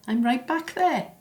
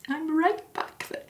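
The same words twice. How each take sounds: First: Holding back tears as the memory hits; fighting tears. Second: Much higher, cracking as the tears come; the words break apart into crying. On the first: Daughter recalling her late mother, starting to cry. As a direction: voice tightening on the edge of tears, pitched up. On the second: Daughter telling of her mother's death, voice breaking into tears. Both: Acted. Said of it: "I told myself I wasn't gonna cry".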